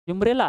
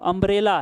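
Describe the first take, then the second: First: The word begins with a 'yoo' sound. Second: The word begins with a plain 'uh' vowel. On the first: The speaker calls it wrong. "इसको यूमरेला नहीं पढ़िएगा" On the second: The speaker calls it right. "नहीं अम्ब्रेला है"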